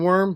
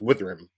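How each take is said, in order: First: It is said as one syllable, like worm. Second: It is said with two syllables, like with-rum. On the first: "it's pronounced skin worm because it's like the skin" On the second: "It should be pronounced Withram"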